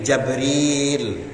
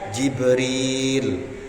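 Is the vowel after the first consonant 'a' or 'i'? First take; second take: a; i. First: The first vowel is an 'a' sound. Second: The first vowel is an 'i' sound. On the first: "huruf jimnya dibaca fathah tanpa huruf hamzah" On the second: "dengan mengkasrohkan huruf jim"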